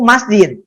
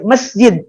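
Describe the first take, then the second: First: The first syllable has the vowel 'a'. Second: The first syllable has the vowel 'e'. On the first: This follows the language rule. The speaker calls it right. "ucapan yang betul itu masjid" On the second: This is the dictionary's accepted form. The speaker calls it wrong. "pakai E"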